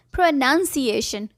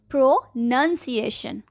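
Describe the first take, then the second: First: प्रोनंसिएशन with nun, not noun; correct pronunciation. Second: प्रोनंसिएशन slowly, nun syllable clear; slow correct pronunciation. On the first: Teacher models the right word: nun, not noun. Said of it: "सही word है प्रोनंसिएशन". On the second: Teacher repeats slowly for the class. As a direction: stretch out प्रोनंसिएशन, nun not noun. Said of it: "yes". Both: Shown as a demonstration.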